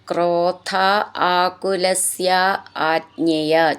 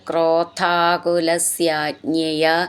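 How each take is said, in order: First: The words are said separately, not linked. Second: The words are run together into one word.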